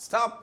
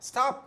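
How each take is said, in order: Both takes have the same delivery.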